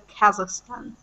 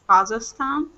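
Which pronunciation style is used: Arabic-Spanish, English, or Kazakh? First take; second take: English; Kazakh. First: It is pronounced the way English speakers say it. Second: It is pronounced the way people from Kazakhstan say it. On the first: "in English it's pronounced like Kazakhstan" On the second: "people who live in Kazakhstan, they pronounce it like Kazakhstan"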